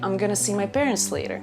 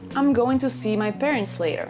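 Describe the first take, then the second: First: 'Going to' is reduced and run together as 'gonna'. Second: Every word of 'I'm going to' is said fully. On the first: "You can also say" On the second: "You can say"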